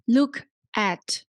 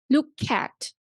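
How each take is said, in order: First: The two words are said separately. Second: The k runs straight into the vowel. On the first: The speaker calls it wrong. "You do not say maybe look at" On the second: The speaker calls it right. "you need to link k and a"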